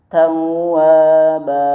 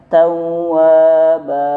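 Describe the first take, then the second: First: The final vowel is held and released smoothly. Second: The final vowel is held and released smoothly.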